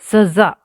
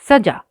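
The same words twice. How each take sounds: First: The middle consonant is a hissing 'z'. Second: The middle consonant is a plain 'j'. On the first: It means punishment. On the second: It means beauty.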